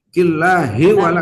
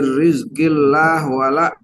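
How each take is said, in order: First: Allah ends with an 'i' vowel linked onward. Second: Allah ends without a vowel, on a consonant. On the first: The speaker calls it right. "lafzul jalalah jangan disukun" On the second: The speaker calls it wrong. "Saya dengar tadi ... Jangan begitu nggak boleh"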